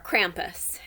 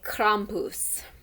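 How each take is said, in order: First: It is said with an American accent. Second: It is said with a non-American accent.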